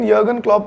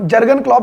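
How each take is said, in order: First: The first name begins with a Y sound. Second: The first name begins with a J sound. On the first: This is how the name is actually pronounced. "प्रोनाउंस करते हैं" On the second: This is how the name is written. "लिखा जाता है"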